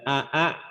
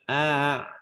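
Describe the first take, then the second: First: Both glottal stops are pronounced fully and distinctly. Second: The second glottal stop is softened into a glide. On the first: The speaker calls it wrong. "Bukan dibaca a a" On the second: The speaker calls it right. "tapi a"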